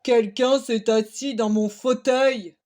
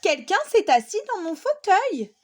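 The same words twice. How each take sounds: First: It is said in a very big, deep voice. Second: It is said in a soft, gentle voice.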